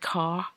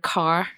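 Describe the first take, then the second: First: The final r is not pronounced. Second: The final r is clearly pronounced.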